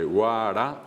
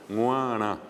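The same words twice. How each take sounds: First: "guará" with oral g and tapped r; "guará" as a fully oral word; oral pronunciation. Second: "guará" drawn out slowly as "nguaná"; slowly nasalise all of "guará"; nasal pronunciation. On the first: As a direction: say "guará" all through the mouth. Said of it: "se pronuncia de manera oral". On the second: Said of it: "como es una palabra nasal". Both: Shown as a demonstration.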